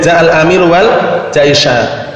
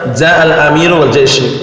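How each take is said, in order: First: The last word ends with an 'a' vowel. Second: The last word ends with a 'u' vowel. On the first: The leader came together with the army. "Ini kalau dibaca jaisha" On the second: The leader came, and the army came too. "kalau dibaca jaishu"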